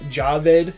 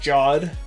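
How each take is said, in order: First: The name is said with two syllables. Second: The name is said with one syllable. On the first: The speaker calls it right. "I finally got his name right" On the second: The speaker calls it wrong. "not Jod"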